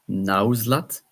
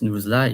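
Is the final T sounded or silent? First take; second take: sounded; silent. First: The final T is clearly pronounced. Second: The final T is left silent. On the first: "else in English it will be Nauzlat" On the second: "in French, you don't pronounce the T"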